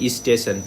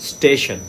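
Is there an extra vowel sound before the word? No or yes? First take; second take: yes; no. First: An extra vowel comes before the s sound. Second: The word starts directly with the s sound.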